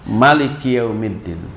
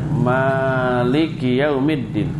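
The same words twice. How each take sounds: First: All vowels of Maliki are short. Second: The first syllable ma is held long. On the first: "dengan mak pendek" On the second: "membaca dengan mak yang panjang"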